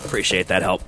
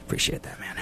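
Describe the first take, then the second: First: Said in the usual way. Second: Whispered thanks. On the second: Pretend.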